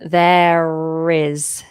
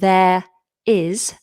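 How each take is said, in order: First: An r sound links the two words smoothly. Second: The two words are said without an r link. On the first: "it's a linking R" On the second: "Rather than"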